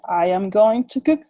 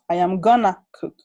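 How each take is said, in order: First: Going to is said in full. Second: Going to is shortened to gonna. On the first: "en lugar de decir I am going to cook" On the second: "diríamos I am gonna cook"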